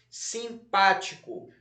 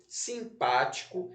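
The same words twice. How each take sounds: First: "Simpático" higher, PÁ stretched, falling end; stress on PÁ. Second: "simpático" read evenly with a rising list tune; word dictation. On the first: Teacher shows pupils where to underline, "Simpático" stressed on PÁ. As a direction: punch the second syllable of "Simpático". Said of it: "um tracinho embaixo da sílaba pá". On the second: Teacher repeats the word list for pupils, "simpático" in careful dictation. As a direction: dictate "simpático", end lifted. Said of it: "vamos lá repetir as palavras". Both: Shown as a demonstration.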